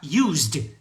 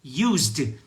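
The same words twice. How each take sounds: Both takes have the same delivery.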